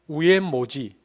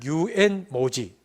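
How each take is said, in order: First: It starts with 'u' and has 'mo'. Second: It starts with 'yu' and has 'mo'. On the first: "경상도 사람 그냥 시키면 우엔모지" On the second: "혹은 유엔모지"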